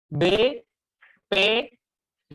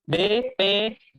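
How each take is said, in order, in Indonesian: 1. Hurufnya diucapkan dengan tempo lebih lambat. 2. Hurufnya diucapkan dengan tempo lebih cepat.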